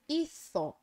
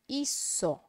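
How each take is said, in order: First: The z has the sound used in Spain. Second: The z is said as an s sound. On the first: "um espanhol leria essa palavra como hizo" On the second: "Na América, a gente transforma no som S"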